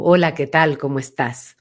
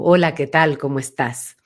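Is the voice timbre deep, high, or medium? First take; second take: deep; deep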